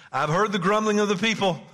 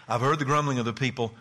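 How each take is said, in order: First: God's words, higher and louder; booming divine voice. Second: Said in the usual way. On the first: Acted. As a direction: proclaim it as God speaking. Voicing God from the verse.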